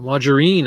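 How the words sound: It is said in a British way.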